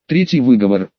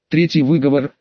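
First: Shrill snapped reprimand; squeaky bark. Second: Gentle polite request; pleading. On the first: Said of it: "рявкнула Вейга пискляво". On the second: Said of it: "попросила Эсфирь". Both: A narrator's reading.

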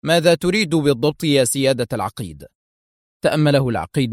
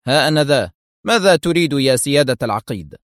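First: Mildly composed question; understated, even-tempered inquiry; calm. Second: Mildly resolute, self-announcing answer; understated firmness towards an officer; firm. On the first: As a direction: ask the officer calmly, unruffled. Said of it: "سأل أدهم العقيد مختار في هدوء". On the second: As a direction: step in with firm authority. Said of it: "يقول في حزم". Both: A narrator's reading.

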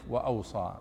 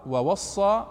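First: "وأوصى" said "wa-awsa", low and soft; "وأوصى" with a hamza, dropped and quiet; "وأوصى" read as "wa-awsa", falling; "وأوصى" written with alif. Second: "ووصى" said "wa-wassa", rising at the end; "ووصى" with a doubled s, lifted; "ووصى" read as "wa-wassa", no hamza; "ووصى" written with waw. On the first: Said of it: "وبعضها بالألف". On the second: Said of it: "كتبوا بعضها بالواو". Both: Shown as a demonstration.

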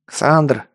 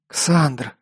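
First: Mild calling out. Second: Lightly hoarse gasp. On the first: Hooded stranger hails Ксандр mid-battle, mild call. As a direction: call the name to get his attention. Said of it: "выкрикнул незнакомец смутно знакомым голосом". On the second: Exhausted Элли warns Ксандр of what's behind, understated wheeze. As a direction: gasp the name out with a touch of hoarseness. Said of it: "прохрипела тяжело дышащая Элли". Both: A narrator's reading.

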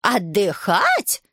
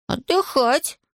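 First: Slow, drawn-out outraged question; grandma outraged at the idea of resting; indignant echo. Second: Put-on boy's suggestion. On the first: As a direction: repeat it in slow disbelief. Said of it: "возмутилась бабушка". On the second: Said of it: "Ivan's reply". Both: A narrator's reading.

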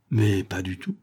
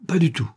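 First: Mild, innocent-sounding denial; naive denial. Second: Quick, higher-pitched blurted denial; burst of sincerity. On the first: Von Kopfen denying any violence to the policeman, naively. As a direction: play innocent, lightly puzzled. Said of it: "fit d'un air naïf". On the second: Von Kopfen denying he is Fouinard's friend, blurting sincerely. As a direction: let it slip out spontaneously. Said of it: "laissa échapper Van Kopfen en un élan de sincérité". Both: A narrator's reading.

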